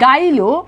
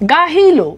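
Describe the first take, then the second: First: The middle h sound is dropped. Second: The middle h sound is pronounced. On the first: "হটা কি হয়েছে লোপ পাইছে" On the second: "যেমন আমি যদি বলি গাহিলো"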